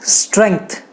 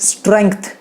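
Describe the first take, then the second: Both takes have the same delivery.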